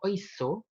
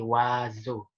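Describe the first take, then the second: First: The first vowel is said as 'oi'. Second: The first vowel is said as 'wa'. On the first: The speaker calls it wrong. "Bukan oiseau" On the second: The speaker calls it right. "tapi oiseau"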